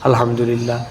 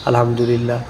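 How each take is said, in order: No difference in how they are said.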